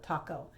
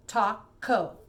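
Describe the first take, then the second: First: Said in the usual way. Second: "Taco" broken as TA-co, loud and separated; split into syllables. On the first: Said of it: "What's the word?". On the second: Shown as a demonstration. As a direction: say "Taco" in two clear syllables. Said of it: "same thing with syllables".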